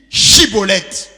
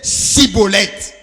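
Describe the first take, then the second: First: The word begins with a 'sh' sound. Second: The word begins with an 's' sound. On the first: This is the test word as it should be said. The speaker calls it right. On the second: The speaker is from another tribe and cannot say it properly. The speaker calls it wrong. "car il ne pouvait pas bien prononcer"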